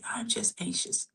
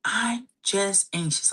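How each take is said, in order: First: "I'm just anxious" breathed out in a soft whisper. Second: Said in the usual way. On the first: Shown as a demonstration. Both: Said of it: "let me show you what I mean here".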